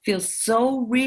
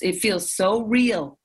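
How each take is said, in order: First: Slow breathy whisper of "feels so real". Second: Said in the usual way. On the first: Real, not acted. Echoing her own words to the host, slow whisper. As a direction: drop to a whisper on the repeat.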